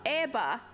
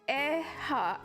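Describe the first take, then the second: First: The second consonant is a b sound. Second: The second consonant is an h sound. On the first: The speaker calls it right. "it's probably eba" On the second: The speaker calls it wrong. "But instead of eha"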